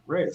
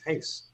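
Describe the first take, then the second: First: The name is said with a Spanish-style R. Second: The name is said with a Portuguese-style R. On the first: The speaker calls it wrong. "I used to always say ... but it's not Reyes" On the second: The speaker calls it right. "it's Hayes"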